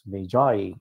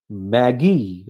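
First: It is said unlike the name Maggie. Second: It is said like the name Maggie. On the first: The speaker calls it right. "It is Magi" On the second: The speaker calls it wrong. "It is not Maggie"

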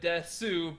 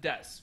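First: The final u vowel is pronounced. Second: The final u vowel is dropped. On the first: "normally would be read desu" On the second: "we're just going to pronounce it des"

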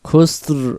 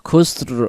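Both takes have the same delivery.

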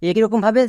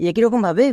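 Both takes have the same delivery.

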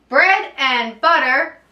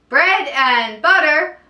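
No difference in how they are said.

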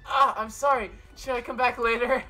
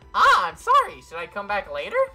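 First: It is said in his normal voice. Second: It is said in a Monokuma impression voice.

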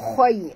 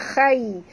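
First: The kha sound is heavy and thick. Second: The kha sound is light and thin. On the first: The speaker calls it right. "huruf kha kena baca tebal" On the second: The speaker calls it wrong. "jangan baca khai"

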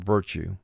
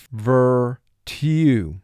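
First: The sounds run together in everyday speech. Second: Each sound is said slowly and distinctly. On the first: This is the everyday spoken form. "And we say in conversation" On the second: This form helps with spelling the word. "For spelling, pronounce the word virtue"

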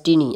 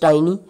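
First: The vowel is a short single vowel. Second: The vowel is a gliding diphthong. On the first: The speaker calls it wrong. "they pronounce it as teeny, that is a short vowel sound" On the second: The speaker calls it right. "actual pronunciation is tiny, ... it's a diphthong"

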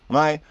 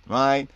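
No difference in how they are said.

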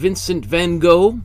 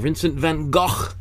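First: The name is said the everyday anglicized way. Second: The name is said closer to its original pronunciation. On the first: The speaker calls it wrong. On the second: The speaker calls it right.

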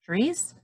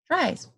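First: The vowel is pronounced like ee. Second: The vowel is pronounced like eye. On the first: The speaker calls it wrong. "doesn't sound right" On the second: The speaker calls it right. "let me flip the vowel. ... that makes more sense"

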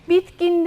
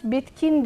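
First: The middle consonant is a soft g sound. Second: The middle consonant is a hard k sound. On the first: The speaker calls it wrong. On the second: The speaker calls it right.

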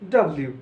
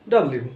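No difference in how they are said.

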